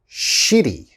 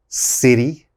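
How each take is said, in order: First: The word begins with an sh sound. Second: The word begins with an s sound. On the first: The speaker calls it wrong. "a lot of my students say shitty" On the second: The speaker calls it right. "You have to pronounce that city"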